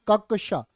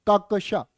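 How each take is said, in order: The two takes are said the same way.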